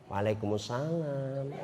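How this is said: It is said in a sweet, drawn-out voice.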